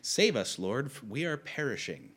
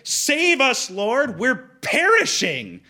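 First: It is said flatly, without emotion. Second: It is said with panic and terror.

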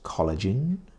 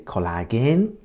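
First: It is pronounced with an English accent. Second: It is pronounced with a Japanese accent. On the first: The speaker calls it right. "the correct pronunciation is collagen" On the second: The speaker calls it wrong. "Japanese say collagen"

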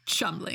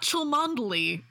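First: The name is said short, in two syllables. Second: The name is said in full, several syllables. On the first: The speaker calls it right. "it's Chumley" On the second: The speaker calls it wrong. "it's not Cholmondeley"

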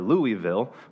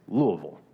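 First: It is pronounced the way outsiders tend to say it. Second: It is pronounced the way local residents say it. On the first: The speaker calls it wrong. "You want to say Louisville or Louisville" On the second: The speaker calls it right. "the locals, they will correct you and say it's Louisville"

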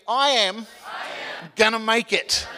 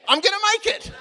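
First: It is spoken slowly with a break after am. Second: It is spoken faster in one smooth run.

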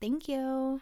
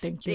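First: It is said in a higher voice. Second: It is said in a lower voice.

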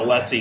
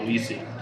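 First: The first syllable sounds like 'less'. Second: The first syllable sounds like 'lease'. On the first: The speaker calls it right. "someone who is leasing something is a lessee" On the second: The speaker calls it wrong. "not a leasee"

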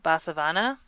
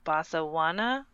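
First: The middle consonant is a V sound. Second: The middle consonant is a W sound. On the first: The speaker calls it wrong. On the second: The speaker calls it right.

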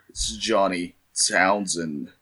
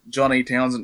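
First: It is said in a dramatic narrator's voice. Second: It is said in his normal voice.

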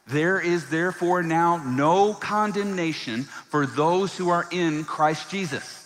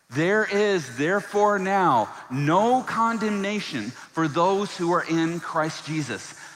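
First: It is recited in a plain, ordinary way. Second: It is declared with strong, emphatic conviction. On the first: "Can you say that with me?" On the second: "can we say it like we actually believe it?"

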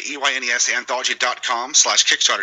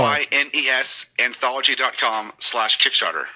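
First: It is said at a fast pace. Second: It is said at a slower pace.

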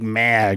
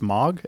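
First: The word is said in a Chicago accent. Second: The word is said without a Chicago accent. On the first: "with my stupid Chicago accent" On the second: "It's Moog"

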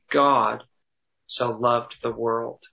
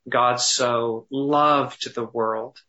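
First: The stress is on the word God. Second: The stress is on the word loved.

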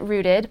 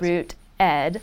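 First: It is said as one single word. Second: It is said as two separate parts. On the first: "I like to pronounce it Rooted" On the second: "People pronounce it in Root Ed"

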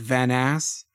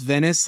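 First: It is said with an exaggerated French-style accent. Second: It is said with a plain English accent.

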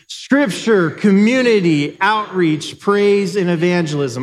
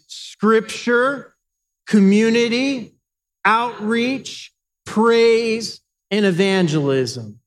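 First: The list is said faster than before. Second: The list is said at a moderate pace.

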